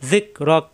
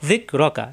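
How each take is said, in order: First: The word ends sharply on a bare k. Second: The final k sound is followed by a vowel. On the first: The reader stops at this point. "থামলে এই কাফে সাকিন হয়ে যাবে" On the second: The reading continues without stopping. "কাব যাবর কা"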